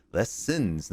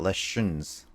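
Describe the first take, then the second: First: Slow, careful "lessons" with a clean S sound; carefully fix "lessons", syllable by syllable; corrected "lessons". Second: Slow "lessons" with SH in the middle, like "leshuns"; mispronounced "lessons". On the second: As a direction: show the slip in "lessons" as "leh-shuns". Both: Shown as a demonstration. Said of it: "not lessons".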